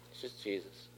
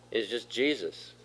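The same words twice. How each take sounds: First: Much softer, almost under the breath; soft hushed repeat. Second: Said in the usual way. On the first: Real, not acted. Pastor repeating to the congregation, hushed and soft. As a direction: let the name sink in quietly.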